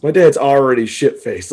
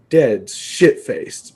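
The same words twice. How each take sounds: First: Said in the usual way. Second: Drawn-out, dawning realization; slow realization. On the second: Retold or imitated. Son realizing his dad is drunk, slow dawning. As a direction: let it sink in very slowly.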